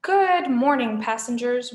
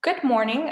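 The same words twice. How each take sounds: First: Loud, drawn-out Australian greeting; way-too-happy Australian intercom voice; happy Australian announcer. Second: Mildly entranced greeting; lightly voiced, vacant crew greeting; glazed crew member. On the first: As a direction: greet passengers with overdone Australian cheer. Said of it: "Australian accent who sounded way too happy". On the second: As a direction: greet as if hypnotised. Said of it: "his eyes glazed". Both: A narrator's reading.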